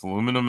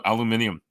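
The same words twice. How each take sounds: First: "aluminum" in four syllables, a-LOO-mi-num; "aluminum" the North American way; American pronunciation. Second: "aluminium" in five syllables, al-yoo-MIN-ee-um; "aluminium" with the extra i before -um; British pronunciation. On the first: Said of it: "we go both ways". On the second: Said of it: "we have the right pronunciation of aluminium". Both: Shown as a demonstration.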